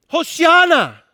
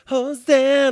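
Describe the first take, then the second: First: It is said as a desperate cry for help. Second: It is said sweetly, like a term of endearment.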